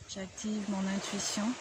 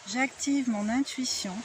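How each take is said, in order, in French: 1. La phrase est dite doucement, à voix basse. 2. La phrase est dite à voix haute, au volume normal. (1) "Une fois à voix basse" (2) "à voix haute"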